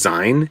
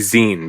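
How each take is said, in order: First: The vowel sounds like 'eye', rhyming with 'mine'. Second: The vowel sounds like 'ee', as in 'magazine'. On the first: The speaker calls it wrong. "I keep in my head pronouncing it as zine because that's just how I read it" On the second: The speaker calls it right. "it's supposed to be zine because it's short for magazine"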